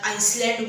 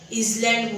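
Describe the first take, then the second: First: An s sound follows the first vowel. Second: A z sound follows the first vowel. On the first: "आइसलँड बोलतात" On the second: "इझलँड बोलतात"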